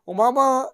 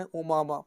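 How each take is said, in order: First: Imama called out higher and louder; emphatic repeat. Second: Said in the usual way. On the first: Shown as a demonstration. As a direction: announce Imama brightly, raised and loud. (امامہ اونچی اور بلند آواز میں)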